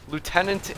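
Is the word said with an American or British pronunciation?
American. It is said with an American pronunciation. "across the pond over in Northern America"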